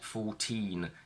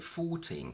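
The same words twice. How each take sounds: First: The stress is on the second syllable. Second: The stress is on the first syllable. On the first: The speaker calls it wrong. "I would have the stress on teen and the stress on cats next to each other, and that's very bad" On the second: The speaker calls it right. "the stress shifts to the front and we say fourteen cats"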